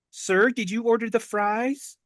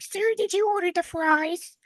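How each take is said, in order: First: Said in the usual way. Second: Much higher squeaky little voice; squeaky kitty voice. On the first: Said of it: "like, squeaky". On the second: Retold or imitated. Mimicking the small waitress's question in a squeaky kitty voice. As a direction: squeak it out like a tiny kitten. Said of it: "that's, like, my kitty voice".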